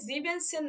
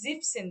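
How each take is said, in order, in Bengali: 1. zehn-এর আগে পূর্ণ রূপ sieben থাকে। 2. en বাদ যায়, তখন ছোট sieb হয়। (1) "জিবেনসেন না দিয়ে" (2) "জিপসেন দিচ্ছি"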